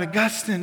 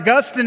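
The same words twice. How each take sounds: First: The name is called out at normal volume. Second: The name is yelled out more loudly.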